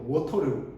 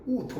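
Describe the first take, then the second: First: It is said in a familiar American-style accent. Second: It is said in an exaggerated British-style accent.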